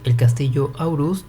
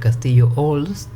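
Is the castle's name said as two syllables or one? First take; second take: two syllables; one syllable. First: The name is said with two syllables, Au-rust. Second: The name is said as one syllable, Olst. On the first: This is the newer Japanese-style reading. "un cambio en la pronunciación" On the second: This is the earlier, more Northern European reading. "una pronunciación un poco más cercana a las culturas del norte"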